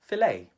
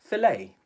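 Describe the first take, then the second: First: It is said with a Filipino English accent. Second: The same.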